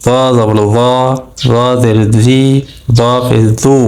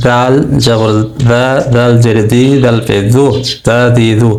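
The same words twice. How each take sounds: First: র, দি, দু with a heavy first sound and rounded vowels; weight the sound in র জবর র; thick heavy letter. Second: দা, দি, দু with a light, thin first sound; thin light letter. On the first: Teacher contrasting it with the thin letter, thick র. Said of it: "তখন মোটা করে পড়বো". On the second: Teacher drilling the thin letter of the pair, light দা দি দু. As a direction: keep দা দি দু light. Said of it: "পাতলা করে পড়বো". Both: Shown as a demonstration.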